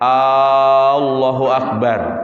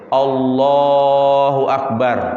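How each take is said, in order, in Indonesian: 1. Bunyi A di awal dipanjangkan. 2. Suku kata lah pada Allah dipanjangkan. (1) "Tidak boleh hamzahnya" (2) "kalimat yang dipanjangkan adalah kalimat Allahnya"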